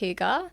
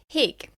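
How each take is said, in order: First: The word is said as two syllables. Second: The word is said as one short syllable. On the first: The speaker calls it right. "it was pronounced hygge" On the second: The speaker calls it wrong. "I thought you pronounced this word hig"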